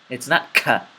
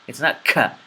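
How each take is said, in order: Both takes have the same delivery.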